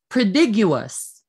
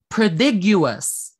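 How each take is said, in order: The two takes are said the same way.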